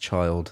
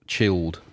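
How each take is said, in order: First: The vowel is long, like in 'child'. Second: The vowel is short, like in 'chill'. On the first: The speaker calls it right. "no, it's it's Child" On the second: The speaker calls it wrong. "Some Someone said it uh, chilled, but it's"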